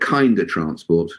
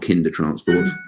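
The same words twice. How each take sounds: First: Kinder has a long 'eye' vowel, like kind. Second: Kinder has a short 'i' vowel, like kin. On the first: Everyone should be more kind. The speaker calls it right. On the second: It is the usual historical name meaning children. The speaker calls it wrong.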